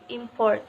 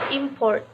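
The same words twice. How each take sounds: First: The stress is on the second syllable. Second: The stress is on the first syllable. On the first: It is used as a verb. "The emphasis of each two-syllable verb is on the second syllable" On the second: It is used as a noun. "The first syllable in a two-syllable noun is emphasized"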